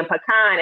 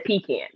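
First: "pecan" said puh-KAHN, stress on the end; "pecan" with a short first syllable and open ah; Southern pronunciation of pecan. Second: "pecan" said PEE-can, stress up front; "pecan" with a long ee and a flat can; Northern pronunciation of pecan. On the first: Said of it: "he wanted to try to start saying pecan". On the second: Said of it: "he says pecan". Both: Retold or imitated.

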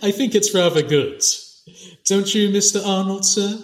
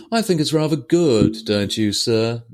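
First: Light mock politeness, higher. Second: Mock polite, higher at the start. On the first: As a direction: tease him with fake courtesy. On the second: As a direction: needle the officer with fake praise. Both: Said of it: "says it with this mocking tone".

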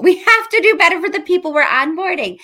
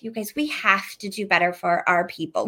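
First: Louder and higher, urgent; emphatic. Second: Said in the usual way. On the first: Real, not acted. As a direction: push it harder, with a laugh. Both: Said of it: "repeated with more force".

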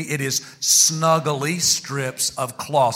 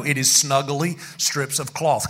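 First: Slow, spaced-out words for the congregation; leading group repetition. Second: Said in the usual way. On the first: Shown as a demonstration. Preacher getting church to say it along, slowly. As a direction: draw it out so everyone can join. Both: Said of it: "Come on, say it with me".

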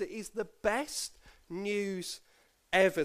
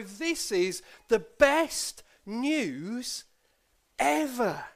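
First: Gentle summing-up; calmer restatement. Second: "best news ... ever" stretched slowly, higher, with a pause before "ever"; dramatic slow reveal to the kids; big reveal. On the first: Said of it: "That's the gospel". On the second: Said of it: "listen to this very carefully". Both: Shown as a demonstration.

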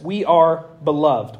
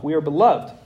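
First: Slow, weighty statement; slow emphasis. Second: Said in the usual way. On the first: Shown as a demonstration. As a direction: lean on each word of beloved. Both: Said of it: "repeats line for emphasis".

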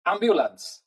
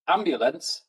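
First: "ambulance" raised high with a Welsh lilt, falling away; Welsh accent. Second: Said in the usual way. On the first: Shown as a demonstration. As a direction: lift "ambulance" up Welsh-style and let it fall. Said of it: "with a more of a Welsh accent". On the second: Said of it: "we just say it with a Welsh accent".

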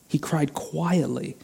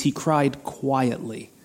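First: Soft and slow, letting it sink in; quietly, for effect. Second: Said in the usual way. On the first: Shown as a demonstration. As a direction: drop to a hushed, drawn-out repeat. Repeats the word quietly, softly.

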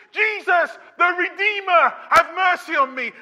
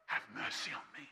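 First: Full shouted plea, high and loud; the blind beggar shouting to be heard over the crowd; desperate shout. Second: Barely breathed whisper of the plea. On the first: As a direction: shout for mercy with everything you have. Peak of the acted beggar's cry. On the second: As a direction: whisper it, almost to yourself. Plea repeated after the shouting. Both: Acted.

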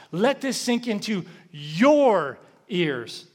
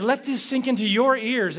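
First: Slow, with your drawn out and leaned on; stress on your. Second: Said in the usual way. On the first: Shown as a demonstration. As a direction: land hard on the word your, slowly. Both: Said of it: "the word that's emphasized".

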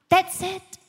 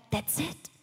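First: "That's it" thrown out higher and louder; indignant disbelief. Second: Soft, quizzical "That's it" with a rise; mock disbelief. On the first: Retold or imitated. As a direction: repeat "That's it" in outrage. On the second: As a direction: let "That's it" hang, puzzled. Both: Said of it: "And I'm like".

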